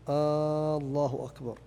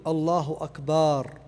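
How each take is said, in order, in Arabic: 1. الحركة الأولى من 'Allah' تُمَدّ طويلًا. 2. الحركة بعد الباء في 'akbar' تُمَدّ. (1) "أن يمد همزة الله فيقول الله أكبر" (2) "أن يمد باء أكبر. فيقول الله أكبر"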